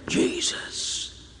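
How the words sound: The word is whispered softly.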